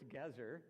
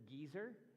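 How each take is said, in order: First: The first vowel is a short 'e' sound. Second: The first vowel is a long 'ee' sound. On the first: The speaker calls it right. "but it's Gezer" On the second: The speaker calls it wrong. "some of you may, when you read your Bible, pronounce it Geezer"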